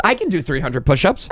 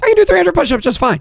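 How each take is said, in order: First: Said in the usual way. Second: Higher and fast, "do" punched in mock confidence; forced bravado. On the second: Real, not acted. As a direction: pump yourself up defiantly. Bravado repeat.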